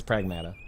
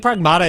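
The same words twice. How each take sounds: First: Pragmata with a short flat "a" as in mat; official pronunciation. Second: Pragmata with a broad "ah" in the middle; preferred pronunciation. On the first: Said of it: "how they pronounce it in the game". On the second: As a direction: say Pragmata as prag-MAH-ta. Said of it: "but apparently it's Pragmata". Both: Shown as a demonstration.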